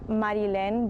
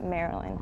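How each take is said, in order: First: The name is said with Spanish pronunciation. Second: The name is said with English pronunciation. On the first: This is how it is said in the home language. "in Spanish, it's" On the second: This is how people in the new country read it. "here everyone just reads it"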